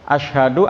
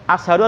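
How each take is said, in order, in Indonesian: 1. Konsonan pertama itu bunyi sh. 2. Konsonan pertama itu bunyi s biasa. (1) "asyin itu asyhadu aku bersaksi" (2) "pakai sin"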